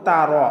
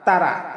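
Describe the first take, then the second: First: The r sound is heavy and full. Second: The r sound is light and thin. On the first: The speaker calls it right. "র র হচ্ছে পুর করে বা মোটা করে পড়তে হবে" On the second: The speaker calls it wrong. "আমরা অনেকেই পাঠ করি আলাম তারা তারা। এই তারা হবে না"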